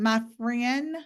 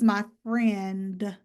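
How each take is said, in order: First: The final consonant cluster is reduced. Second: The final consonant cluster is fully pronounced.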